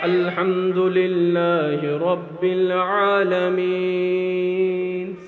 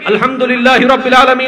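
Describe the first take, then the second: First: The phrase is recited at a slow pace. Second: The phrase is recited quickly without lingering.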